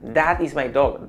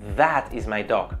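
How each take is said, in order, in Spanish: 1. El th suena como una d detrás de los dientes. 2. El th tiene la lengua entre los dientes. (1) "un fallo muy típico es decir" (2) "That no"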